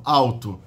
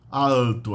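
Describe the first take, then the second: First: "alto" with L said as W, "awto"; diphthong alto. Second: "alto" with a clear L, "al-to"; consonant L demo. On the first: Teacher demos "alto" as "awto". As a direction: glide the L into a W in "alto". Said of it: "Isso é um ditongo". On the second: Teacher contrasts "alto" with a clear L. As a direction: sound the L fully in "alto". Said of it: "Lá". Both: Shown as a demonstration.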